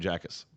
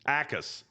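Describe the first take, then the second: First: The name starts with a J sound. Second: The name starts without a J sound. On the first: "I will continue to call him Jackus, just because it's funny to me" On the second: "The the J is silent"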